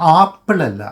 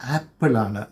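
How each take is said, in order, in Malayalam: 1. ആദ്യത്തെ സ്വരാക്ഷരം തുറന്ന 'ah' ശബ്ദമാണ്. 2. ആദ്യത്തെ സ്വരാക്ഷരം മുന്നോട്ടുള്ള 'eh' ശബ്ദമാണ്. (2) "എ എന്നാണ് പ്രൊണൗൺസ് ചെയ്യേണ്ടത്"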